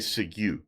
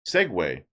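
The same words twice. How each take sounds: First: It does not sound like Segway. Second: It sounds like the scooter name Segway. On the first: The speaker calls it wrong. "I've heard people say segue" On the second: The speaker calls it right. "it's like the scooter"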